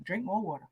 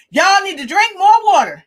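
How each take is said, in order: First: Very soft, low echo; quiet aside. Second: High, loud quoted order; imitated emphatic doctor. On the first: Real, not acted. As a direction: drop right down and repeat it softly. Repeats the doctor's advice softly. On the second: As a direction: proclaim it like the doctor laying down advice. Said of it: "He said it just like that".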